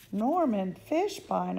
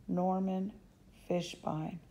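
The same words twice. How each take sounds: First: Loud, slow drawn-out shout of the name; yelled. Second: Said in the usual way. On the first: Acted. Girl reading the invitation, yelling the sender's name out loud. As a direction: bellow the name out in disbelief. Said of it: "I yelled". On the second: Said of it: "Norman Fishbein," I yelled".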